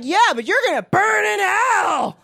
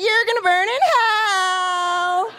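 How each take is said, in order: First: Said in the usual way. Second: High, slow gleeful shout; excited damnation. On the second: Shown as a demonstration. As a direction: cheer the curse like good news. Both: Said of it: "say that a little more excited".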